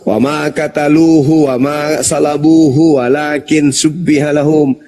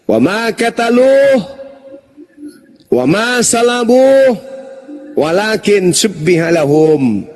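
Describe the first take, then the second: First: It is read straight through, with word endings voiced. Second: It is cut into pieces, with word endings dropped. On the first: "kalau saya baca langsung" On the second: "saya penggal"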